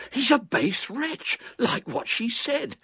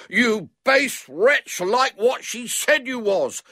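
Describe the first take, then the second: First: Put-on high, slow, drawn-out boy's voice; excited boy. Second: Put-on high, loud, slow boyish bawl. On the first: Boy telling his squire about the villain, excited. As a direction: pronounce the verdict slowly and high, without shouting. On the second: Boy through keyhole to locked-in man, bawling. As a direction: bawl the accusation word by word. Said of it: "bawled William". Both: A narrator's reading.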